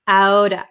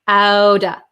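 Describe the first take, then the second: First: The words blend into one, with a D-like T. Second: The words blend into one, with a D-like T.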